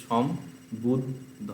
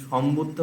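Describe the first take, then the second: First: সম্বুদ্ধ very slowly as som - bud - dho; slow syllable-by-syllable সম্বুদ্ধ; cut into syllables. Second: Said in the usual way. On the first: Shown as a demonstration. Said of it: "একটা একটা করে কাটতে থাকবে". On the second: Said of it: "বললে বাংলায় কি হচ্ছে".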